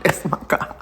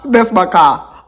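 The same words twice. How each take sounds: First: Breathy laughing whisper of the claim. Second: Said in the usual way. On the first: Real, not acted. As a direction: laugh it under your breath.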